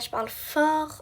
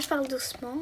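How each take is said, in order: First: It is said loudly. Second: It is said softly.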